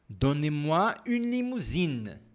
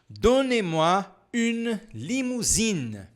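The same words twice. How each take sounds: First: The sentence is said at a faster speed. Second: The sentence is said at a normal speed.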